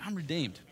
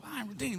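First: Thumping, chesty declaration; bass in the voice. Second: High, soft, thin-powered declaration; without bass. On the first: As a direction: put some bass into it. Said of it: "say it with some thumping, some bass". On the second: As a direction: say it lightly up high, with no thump. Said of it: "some bass in your voice". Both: Shown as a demonstration.

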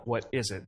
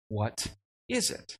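First: Said in the usual way. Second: Slow, wondering "What is it?" with a lift on "is"; puzzled question. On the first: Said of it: "they call it". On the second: A narrator's reading. Israelites staring at strange flakes, slowly wondering "What is it?". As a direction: ask "What is it?" slowly, drawn out in quiet wonder. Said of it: "said to one another".

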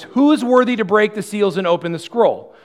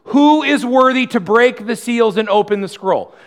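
First: Higher and louder herald call, a little less than the first; loud proclamation. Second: Higher and much louder, a herald's cry; loud proclamation. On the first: Angel proclaiming to all creation, loud but slightly restrained. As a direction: cry it out like an angel, a touch held back. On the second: Angel proclaiming to all creation, loud herald cry. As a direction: call it out like a mighty angel across heaven. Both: Acted. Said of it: "proclaiming in a loud voice".

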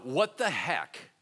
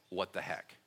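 First: Slow, drawn-out "what the heck?"; mock stunned "what the heck". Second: "What the heck?" low and soft, as if thought; inner "what the heck". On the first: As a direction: stretch out "what the heck?" in amazement. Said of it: "everybody is like". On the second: Shown as a demonstration. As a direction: say "What the heck?" quietly to yourself, much lower. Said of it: "think to yourself".

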